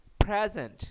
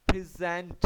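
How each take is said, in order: First: present as a verb, ending pushed high and loud, pre-ZENT; verb stress, second syllable. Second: present with the weight on the first part, PRE-zent; stress on first syllable. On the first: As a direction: hit the last part of present. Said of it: "और verb में कैसे पढ़ेंगे". (क्रिया की तरह आखिरी हिस्से पर ज़ोर) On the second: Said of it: "अब ये देखें नाउन है". (संज्ञा की तरह पहले हिस्से पर ज़ोर) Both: Shown as a demonstration.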